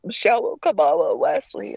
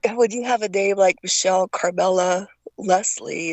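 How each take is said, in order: First: "Michelle Carmela Leslie" slurred, with the L sounds turned to w, like "Michelwo Kamala Weslie"; mangled childhood speech. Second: Said in the usual way. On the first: Shown as a demonstration. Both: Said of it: "and it's coming out".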